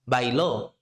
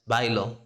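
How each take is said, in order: First: The stress is on the last syllable. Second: The stress is on the first syllable. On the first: Someone else danced in the past. "that's the stressed syllable" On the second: The speaker dances. "if you are saying I dance"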